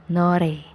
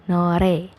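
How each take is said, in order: The two takes are said the same way.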